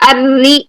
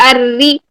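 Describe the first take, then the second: The two takes are said the same way.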